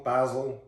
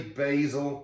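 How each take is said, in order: First: "basil" said BAZ-il, short A as in bat; "basil" with the short British A, BAZ-il. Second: "basil" said BAY-zil, long A like bay; "basil" with the long American A, BAY-zil. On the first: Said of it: "I still say basil, basil". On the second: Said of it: "at what point did you convert from saying basil to basil". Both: Shown as a demonstration.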